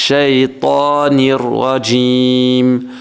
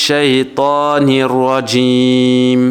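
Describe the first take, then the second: No difference in how they are said.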